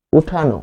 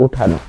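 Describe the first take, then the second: First: উঠানো said as "uthano" with a clear final o; model pronunciation. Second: উঠানো dropped low and soft, "uthano", the o closing it; low soft answer. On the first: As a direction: give উঠানো slowly, ending on o. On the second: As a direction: answer উঠানো quietly as the correct form. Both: Shown as a demonstration. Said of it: "উচ্চারণটা কি?".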